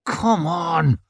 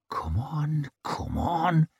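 First: High, strained urging, out of the whisper; urgent urging. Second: Urgent, soft whisper. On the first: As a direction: let the impatience burst out. Whispered urging bursts out louder. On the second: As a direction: whisper it eagerly to yourself. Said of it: "he whispered". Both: A narrator's reading.

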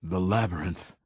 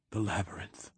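First: Firmer, fuller, steadier; stronger voice. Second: Faint and much softer; barely getting the words out; weak voice. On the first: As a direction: repeat it with more strength. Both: Acted. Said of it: "he said again, voice stronger".

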